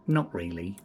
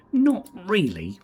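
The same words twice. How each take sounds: First: Said in the usual way. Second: High, louder, slow drawn-out posh denial; mock posh denial. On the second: Asked if he is posh, mock-posh drawn-out denial. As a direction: drawl it like a toff brushing off the question. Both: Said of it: "Are you posh like Juan Lebedev?".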